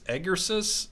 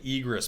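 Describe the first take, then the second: First: The word is said with three syllables. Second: The word is said with two syllables. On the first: The speaker calls it right. "It's like Egersis" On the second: The speaker calls it wrong. "I always say egress, but it's not egress"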